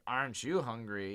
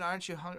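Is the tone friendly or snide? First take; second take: snide; friendly. First: The question sounds aggressive and judging. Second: The question sounds light and friendly. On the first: It passes judgment on how much she ordered. "certain aggressiveness to the tone" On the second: It is a harmless joke. "it was more than"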